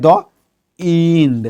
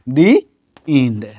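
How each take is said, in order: First: The word 'the' is said with a short 'thuh'. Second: The word 'the' is said with a long 'thee'. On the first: The speaker calls it wrong. "तो यहां पर द नहीं बोलेंगे" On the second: The speaker calls it right. "अब क्या बोलेंगे हम, दी"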